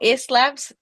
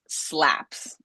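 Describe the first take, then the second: First: An extra vowel sound comes before the s. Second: The word starts directly with the s sound. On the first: The speaker calls it wrong. "No eslaps" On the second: The speaker calls it right. "Empieza directamente con la S"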